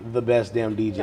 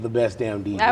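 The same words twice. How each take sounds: First: It is said flatly, with little energy. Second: It is said loudly, with lots of energy. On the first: The speaker calls it wrong. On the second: The speaker calls it right.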